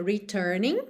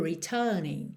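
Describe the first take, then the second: First: "returning" with a rhotic American middle R; curled-R American "returning"; American accent. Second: "returning" with a long middle vowel, no R; British "retuuning"; British accent. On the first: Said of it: "returning com sotaque mais americano". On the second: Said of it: "imitando o sotaque britânico". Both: Shown as a demonstration.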